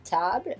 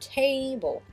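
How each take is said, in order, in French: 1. Il a un son français 'ah' et une fin française. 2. Il a un son anglais 'ay' et une fin 'bol'. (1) "Donc nous, c'est un son A" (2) "et eux, c'est table"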